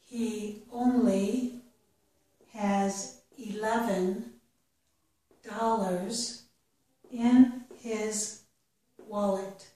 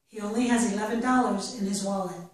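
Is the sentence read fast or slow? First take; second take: slow; fast. First: The sentence is read at a slow pace. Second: The sentence is read at a faster pace. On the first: "I will read each sentence slowly" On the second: "and then a little bit faster"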